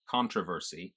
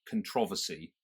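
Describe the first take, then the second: First: "controversy" as "CON-tro-ver-sy", R sounded; American pronunciation. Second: First "controversy" as "con-TROV-ersy"; traditional British pronunciation. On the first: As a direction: stress the first syllable of "controversy". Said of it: "instead of". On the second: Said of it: "in a British pronunciation". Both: Shown as a demonstration.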